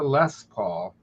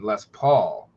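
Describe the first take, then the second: First: The stress falls on the first word. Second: The stress falls on the last word.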